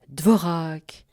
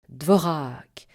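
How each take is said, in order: Both takes have the same delivery.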